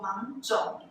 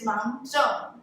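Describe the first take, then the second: First: The last syllable is in the third tone. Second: The last syllable is not in the third tone. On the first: This is how older family members say it. "they call 芒种 in the third tone" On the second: This is the reference-book pronunciation. "Wikipedia told me it is 芒种"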